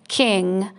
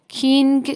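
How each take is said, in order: First: The word ends in ng with no hard g. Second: The word ends with a separate hard g sound. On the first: The speaker calls it right. "میگیم کینگ" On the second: The speaker calls it wrong. "اینجا کینگ بنابراین نمیگیم"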